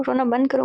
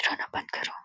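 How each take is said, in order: First: Said in the usual way. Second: Very soft, voiceless whisper; barely audible whisper. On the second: A narrator's reading. Didi watching from the corner, barely audible whisper. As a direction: breathe it almost inaudibly.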